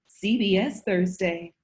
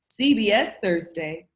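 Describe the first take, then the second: First: It is read with only mild sassiness. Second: It is read with extreme, maximal sassiness.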